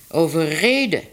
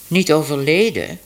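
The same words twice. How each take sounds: First: "overreden" spoken carefully, each syllable clear; corrected word. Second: "Niet overleden" with niet stressed and falling; correcting the doctor's mistake with emphatic "Niet". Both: Acted.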